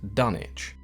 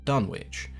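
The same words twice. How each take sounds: First: The name is said without the 'w' sound. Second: The name is said as spelled, with 'w'. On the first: This is how the English town's name is really said. The speaker calls it right. "is actually pronounced" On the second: This is the guess a reader would make from the spelling. The speaker calls it wrong. "it's fairly reasonable to assume that the town was called"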